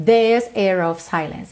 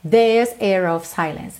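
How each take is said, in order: First: The R sounds are mostly dropped. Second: The R sounds are mostly dropped.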